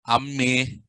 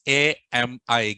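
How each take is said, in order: First: The letters are run together as one word. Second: The letters are said separately with small gaps. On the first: The speaker calls it wrong. "So don't call all these nasty words" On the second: The speaker calls it right. "Give some little bit gap"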